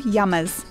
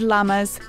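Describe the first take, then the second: First: The word begins with a Y-like sound. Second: The word begins with a plain L sound.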